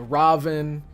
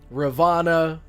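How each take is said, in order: First: The name ends on the n consonant. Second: The name ends with a final a vowel.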